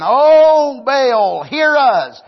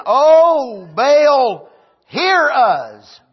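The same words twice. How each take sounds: First: Loud, high calling out; prophets of Baal crying out. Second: Loud, high wailing cry to Baal; prophets of Baal crying out. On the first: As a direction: call out to Baal again, pleading. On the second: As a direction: cry out to a false god, begging. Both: Acted.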